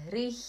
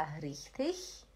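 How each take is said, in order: First: "richtig" ending in a hard K; second option richtig. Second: "richtig" ending in a soft ich-sound; first option richtig. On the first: Teacher offering two options, "richtig" with K ending. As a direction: say "richtig" as "rich-tik". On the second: Teacher offering two options, "richtig" with CH ending. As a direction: say "richtig" as "rich-tich". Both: Shown as a demonstration. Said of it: "tem duas opções".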